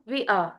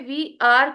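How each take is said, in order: First: 'We are' is contracted to one syllable. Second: 'We are' is said as two full words. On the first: "जब हम contract करेंगे" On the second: "वी आर को हम"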